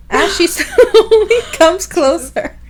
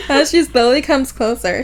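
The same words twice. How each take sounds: First: High, loud reading broken by laughter; laughing. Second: Said in the usual way. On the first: Real, not acted. Host reading the woman's approach, losing it laughing. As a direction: crack up on the slow words.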